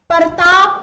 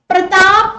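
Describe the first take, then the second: First: A vowel is added between p and r. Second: P and r are joined as a cluster.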